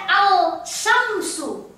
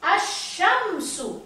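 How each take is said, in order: First: "al-syamsu" with an audible l before the sy; lam wrongly sounded. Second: Slow "Asyamsu", no l, long doubled sy; assimilated alif lam. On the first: Teacher showing what nobody reads, "al-syamsu" with the l sounded. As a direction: pronounce the l of "al-syamsu" separately, then sy. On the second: Teacher modelling the correct reading, slow assimilated "Asyamsu". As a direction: draw out "Asyamsu", running A straight into the sy. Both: Shown as a demonstration. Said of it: "Tidak pernah orang baca al-syamsu".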